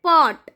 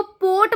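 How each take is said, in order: First: पॉट with a short open o, as in English "pot"; correct pronunciation. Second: पोट with a long closed o, like "pote"; पोट with long o as in "road"; wrong pronunciation. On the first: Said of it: "ये होता है पॉट". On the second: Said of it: "इसको पोट मत बोल देना". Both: Shown as a demonstration.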